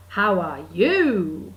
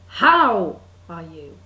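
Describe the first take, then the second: First: "How are YOU", slow, last word loud and swooping; stress on YOU. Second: HOW punched loud and long, then "are you" low; stress on HOW. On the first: Practising it like Joey off Friends, stress on YOU. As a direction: land hard and long on YOU in How are you. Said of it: "makes you sound a little bit like Joey off Friends". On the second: Practising the phrase differently, loud stress on HOW. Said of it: "with the emphasis somewhere else". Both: Shown as a demonstration.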